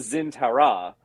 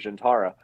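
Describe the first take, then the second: First: The name begins with a z sound. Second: The name begins with a j sound. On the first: This is how the newer show said it. The speaker calls it wrong. "They mispronounced it. They they called it like the the Zintara" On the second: This is how the older show said it. The speaker calls it right. "in D S nine it was called the Jintara"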